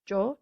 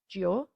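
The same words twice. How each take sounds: First: The i after g is silent. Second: The i after g is pronounced. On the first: The speaker calls it right. "It's gio" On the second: The speaker calls it wrong. "not gio"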